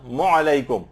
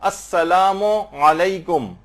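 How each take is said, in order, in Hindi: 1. दोनों शब्द आपस में मिलकर 'mo' की आवाज़ बन जाते हैं। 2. दोनों शब्दों के बीच हल्का सा विराम होता है। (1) "ये जो मीम है सलाम का और ऐन है दूसरा, ये आपस ये मिल जाते हैं, मौ की आवाज निकालते हैं" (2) "बेहतर है कि इसमें गैप दें"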